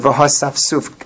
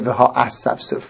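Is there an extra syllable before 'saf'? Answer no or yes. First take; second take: no; yes. First: It is said without an extra syllable before 'saf'. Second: It is said with an extra syllable before 'saf'. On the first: The speaker calls it right. "when they read this word v'ha-saf-suf" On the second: The speaker calls it wrong. "it's common to make an error and say v'ha-as-saf-suf, which is a mistake"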